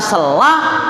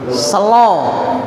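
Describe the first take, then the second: First: The final vowel sounds like 'a'. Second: The final vowel sounds like 'o'. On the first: This is how it is written. "Tulisannya sela" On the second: This is how Javanese speakers read it. "dibaca se selo"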